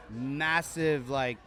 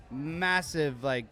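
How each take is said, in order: Both takes have the same delivery.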